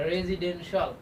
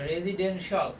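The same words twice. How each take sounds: Both takes have the same delivery.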